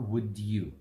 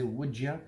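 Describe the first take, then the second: First: Both words are said fully, not reduced. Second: It is reduced the American way, like ya.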